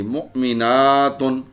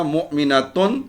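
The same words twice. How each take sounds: First: مؤمناتن with "naa" drawn out before "tun"; slow مؤمناتن, long held aa; long plural ending. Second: مؤمناتن with short "na" and firm rising "tun"; teacher's مؤمناتن, short a before the ending; singular word form. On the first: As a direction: stretch "mu'minaaatun" slowly in مؤمناتن. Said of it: "آتن کی sound آنی چاہیے". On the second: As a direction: say "mu'minatun" for مؤمناتن, no stretched vowel. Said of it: "ایک مومن عورت". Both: Shown as a demonstration.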